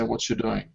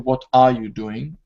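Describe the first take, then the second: First: Words run together with a ch sound. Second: Every word is said fully and separately. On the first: "it's common to say" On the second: "usually you would say"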